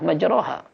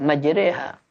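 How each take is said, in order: First: The vowel after r is an open a. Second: The vowel after r leans toward e. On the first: "ada bacaan yang tetap posisinya fathah" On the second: "Tapi ada bacaan yang menggunakan imalah"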